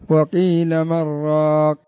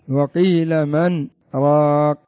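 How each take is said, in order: First: The n merges into r with no pause. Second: A brief silent pause comes after man. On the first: The speaker calls it wrong. "لو جئنا على قواعد التجويد سيكون قراءتها" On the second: The speaker calls it right. "لكن تقرأ بسكت. ... سكتة يسيرة"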